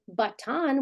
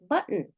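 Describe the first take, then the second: First: The unstressed vowel is full and clear. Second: The unstressed vowel is reduced to schwa. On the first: The speaker calls it wrong. "We don't say button" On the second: The speaker calls it right. "we say button"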